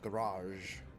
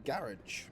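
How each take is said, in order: First: The word has an American pronunciation. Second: The word has a British pronunciation. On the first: "not garage" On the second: "Because I'm British, I say garage"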